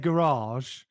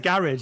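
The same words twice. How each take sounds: First: The A vowels are long. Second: The A vowels are short. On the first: This is how posher southern English people say it. "They have long A's" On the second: This is the speaker's own everyday pronunciation. "I say garage"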